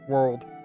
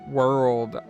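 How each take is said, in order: First: The R sound is weak or dropped. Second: The R sound is clearly curled. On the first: "Most of the time I'll just say world" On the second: "Takes me a lot of effort to curl the R"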